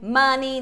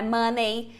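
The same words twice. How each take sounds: First: The final vowel sounds like "ee". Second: The final vowel sounds like "ay". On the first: The speaker calls it right. "tem só o som de I" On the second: The speaker calls it wrong. "não é Money"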